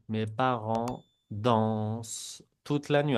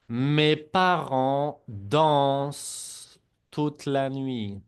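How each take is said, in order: First: Said in the usual way. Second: Mes parents dansent said very slowly, silent -ent on dansent; slow model sentence. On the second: Shown as a demonstration. Teacher slowly models the sentence for students to repeat. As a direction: spell it out slowly for the class to repeat. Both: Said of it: "la E N T no se pronuncia".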